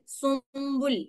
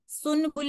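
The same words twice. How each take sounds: First: सुम्बुल with the n hidden as m before b; सुम्बुल with the nasal blended into b; correct pronunciation. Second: सुनबुल with a clear n before b; सुनबुल with an audible n; wrong pronunciation. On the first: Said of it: "नून मैंने छुपा दिया". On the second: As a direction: say सुनबुल sounding the नून fully. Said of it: "सुनबुल नहीं मैंने बोलना". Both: Shown as a demonstration.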